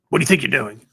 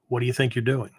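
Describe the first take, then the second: First: The voice is higher, sharper and more agitated. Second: The voice is deep, low and steady. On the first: The speaker is reacting with heated confrontation. The speaker calls it wrong. "It wasn't that kind of thing" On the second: The speaker is holding ground without escalating. The speaker calls it right. "the voice is deep and just, you know, very, very straightforward, very low tone kind of thing"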